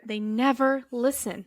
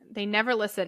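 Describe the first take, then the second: First: It is said in a heavier, sadder way. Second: It is said in a lighter, plainer way.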